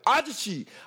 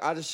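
First: The name is said loudly, with a raised voice. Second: The name is said at normal volume.

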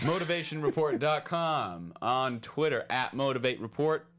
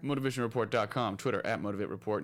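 First: It is said more slowly. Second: It is said at a normal pace.

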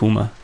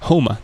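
First: The name is pronounced 'Huma', with an 'u'. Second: The name is pronounced 'Homer', with a clear 'o'. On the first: The speaker calls it wrong. "Huma ist die falsche Aussprache" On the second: The speaker calls it right. "Homer ist es"

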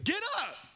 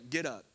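First: It is said forcefully, like an exclamation. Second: It is said calmly, without force.

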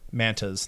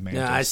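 First: The name is said like plural manta rays. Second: The name is said like the insect mantis. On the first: "like plural manta" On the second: "Like the bug. I always say like the bug"

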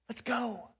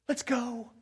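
No difference in how they are said.

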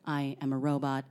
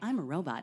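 First: The voice is flat and monotone. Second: The voice is friendly and lively. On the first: The robot has no emotions. "a very kind of monotone robot" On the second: The robot is eager to help. "you can be a very friendly robot who's like"

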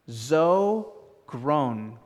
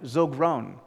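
First: It is said slowly. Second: It is said at normal speed.

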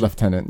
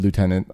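First: The word uses its older, non-spelling pronunciation. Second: The word follows its spelling-based pronunciation. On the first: This is how it used to be said. "that was an old pronunciation. It was Lieutenant" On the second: This is the current way of saying it. "We deferred it to Lieutenant, I think, from the different spelling"

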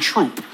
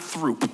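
First: The name begins with a plain t sound. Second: The name begins with a th sound. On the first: The speaker calls it right. "It's Kingston Troop" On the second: The speaker calls it wrong. "Don't pronounce that H. It's not Throop"

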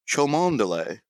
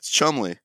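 First: The name is said with many syllables. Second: The name is said with two short syllables. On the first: The speaker calls it wrong. "It looks like it should be pronounced Chomondeley" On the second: The speaker calls it right. "It's Chumley"

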